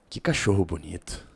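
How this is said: The voice is very deep throughout. It comes across as strange. The speaker calls it wrong. "fui do muito agudo pro muito grave"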